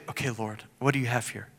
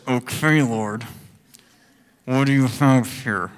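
First: Hushed, softer prayer to the Lord; quiet prayer. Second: Grudging, hesitant plea with Okay drawn out; reluctant prayer. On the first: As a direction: say it softly like a calm prayer. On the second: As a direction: pray it like you'd rather not. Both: Shown as a demonstration. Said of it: "it was more like this".

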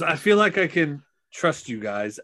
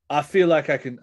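First: Said in the usual way. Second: Put-on accidental Cockney accent for a character. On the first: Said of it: "I don't know why I'm doing". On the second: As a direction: slip into a light Cockney lilt. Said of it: "I'm doing a Cockney accent".

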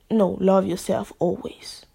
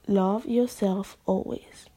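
First: Louder, firm self-correction. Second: Slow, sincere restatement; slow sincere repeat. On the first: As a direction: say it firmly, correcting yourself. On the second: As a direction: let it land slowly and sincerely. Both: Shown as a demonstration.

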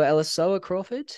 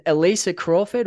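First: Elisoa said as "ella-SO-a", higher and questioning; tentative second guess at the name Elisoa; unsure pronunciation. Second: Elisa said as "eh-LEE-sa"; tentative reading of the name Elisa; unsure pronunciation. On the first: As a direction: stumble through Elisoa as an alternative reading. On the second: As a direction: try Elisa with a stressed LEE in the middle. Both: Real, not acted. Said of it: "is the pronunciation".

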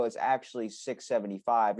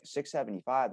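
First: Said in the usual way. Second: Softly surprised, rising at the end; mild puzzled question, acted out; questioning echo. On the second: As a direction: query the price, caught off guard. Shopper's startled echo of the price.

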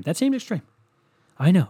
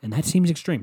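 First: High mock. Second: Said in the usual way. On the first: Real, not acted. Repeated phrase.

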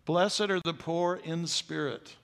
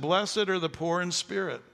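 First: Slower, weighty second reading, "Blessed" drawn out; slow repeat. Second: Blessed stressed with a falling close; first read of "Blessed are the poor in spirit", Blessed leaning in; quoting Jesus. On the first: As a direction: let it sink in slowly. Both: Shown as a demonstration. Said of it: "And he said".

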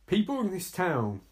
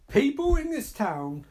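First: Quoting with a touch of disbelief; restrained disbelief. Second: High, indignant repeat; mock outrage. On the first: Retold or imitated. Viewer repeats film dialogue, restrained disbelief. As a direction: repeat it back, holding the outrage in. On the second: Viewer objects to film dialogue, high mock outrage. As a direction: throw the quote back in outrage.

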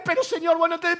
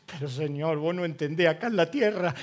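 First: Raised protest. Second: Said in the usual way. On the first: Retold or imitated.

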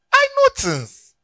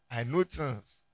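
First: Much higher and slower, mock-knowing; squeaky boast. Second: Said in the usual way. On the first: Preacher teasing the congregation with a high mock boast. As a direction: squeal it like a playful brag.

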